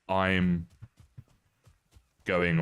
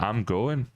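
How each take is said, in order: First: It is said in the speaker's ordinary accent. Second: It is said in an imitated Scottish accent. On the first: "they won't say" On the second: "that's kind of the Scottish accent"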